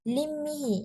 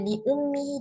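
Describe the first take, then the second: First: The vowel right after the l is i. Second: The vowel right after the l is u. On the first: "dengan hamzah baris di bawah untuk meringankan" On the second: "dengan hamzah baris di depan"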